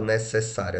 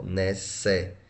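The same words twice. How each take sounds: First: Said in the usual way. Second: Syllable by syllable. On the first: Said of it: "Como é que eu separo". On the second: Shown as a demonstration. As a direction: sound out "necessário" one separate syllable at a time. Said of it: "Assim, ó".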